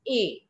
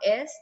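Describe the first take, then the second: First: The word is said as a single vowel sound. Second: The word is said with s and t sounds. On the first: The speaker calls it right. "it's a" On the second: The speaker calls it wrong. "Est is not est"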